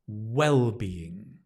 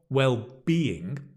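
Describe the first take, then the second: First: The stress is on the first syllable. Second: The stress is on the second syllable. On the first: The speaker calls it right. "the stress is on the first syllable" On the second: The speaker calls it wrong. "not well-being, mm-mm-mm"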